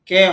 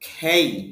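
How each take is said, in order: First: The vowel is a plain e without glide. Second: The vowel glides from e toward i. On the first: The speaker calls it wrong. "কে হবে না" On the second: The speaker calls it right. "উচ্চারণটা হবে খেই"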